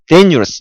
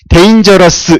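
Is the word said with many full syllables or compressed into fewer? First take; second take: fewer syllables; many syllables. First: The syllables are squeezed together into fewer. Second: Every syllable is pronounced fully and separately. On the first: The speaker calls it right. "데뉴러스 이렇게" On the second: The speaker calls it wrong. "이렇게 하면 못 알아먹어요"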